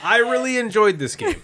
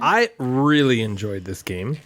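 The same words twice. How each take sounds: First: Higher, laughing mock rave; gushing. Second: Slow, low and deadpan; monotone. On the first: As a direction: oversell it with a laugh. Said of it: "I'm about to do that". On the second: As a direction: drone it out with no enthusiasm. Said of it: "In a monotone voice". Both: Shown as a demonstration.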